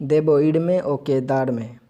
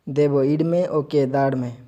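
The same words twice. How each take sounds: No difference in how they are said.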